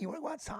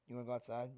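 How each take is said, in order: First: The voice rises up at the end. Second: The voice stays level at the end. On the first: Talking to a pet. "have to go up at the end of your sentence" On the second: Talking to a person normally. "You never just like"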